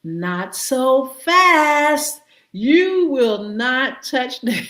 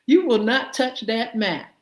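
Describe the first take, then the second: First: Slow, stern warning; a hint of a stern judge; mock stern court. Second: Said in the usual way. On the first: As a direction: lay down the law slowly. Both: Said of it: "they said".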